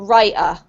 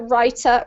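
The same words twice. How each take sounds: First: The middle consonant is a glottal stop. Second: The middle consonant is a clear T. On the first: "what we call a glottal stop, ... you'll probably say butter or writer" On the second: "in the U K accent, we pronounce the T usually"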